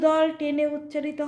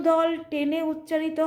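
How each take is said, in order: Both takes have the same delivery.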